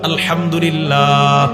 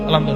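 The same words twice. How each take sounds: First: The word is pronounced carefully and in full. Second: The word is pronounced hurriedly and clipped. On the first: The speaker calls it right. "শুদ্ধভাবে" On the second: The speaker calls it wrong. "এই ঠিক না"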